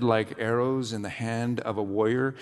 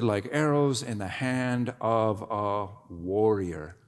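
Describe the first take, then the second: First: Said in the usual way. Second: Slower, leaning on "warrior" as the key word; measured emphasis on "warrior"; slow, stressed quote. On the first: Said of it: "Did you note that Solomon said". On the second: Shown as a demonstration. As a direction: land the word "warrior" deliberately. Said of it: "He said".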